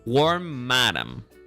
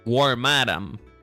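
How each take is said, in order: First: The stress falls on the last part, madam. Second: The same.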